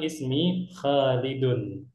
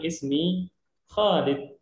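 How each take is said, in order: First: The name ends with an added vowel ending. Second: The name ends on a bare consonant.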